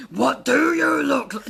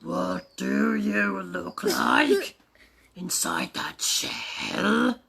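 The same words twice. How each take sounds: First: Loud, high dinosaur demand; unloving bellow. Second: Slow, drawn-out tender question; loving. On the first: Acted. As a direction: bellow the question with no tenderness. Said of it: "just try and be loving". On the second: Shown as a demonstration. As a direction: coo it slowly and lovingly to the egg. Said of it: "That sort of loving".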